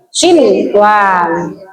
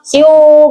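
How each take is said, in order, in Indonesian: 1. Bunyi n diucapkan dengan jelas sebelum w. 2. Bunyi n menyatu dengan bunyi w. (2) "nggak boleh"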